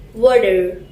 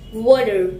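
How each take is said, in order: First: It is said in an American accent. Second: It is said in an American accent.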